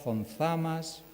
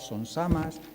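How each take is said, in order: First: The z sounds are said as th. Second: The z sounds are said as s. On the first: It follows the written spelling. The speaker calls it wrong. "como los acabo de pronunciar, con Z" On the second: It follows the local spoken form. The speaker calls it right. "la pronunciación canaria"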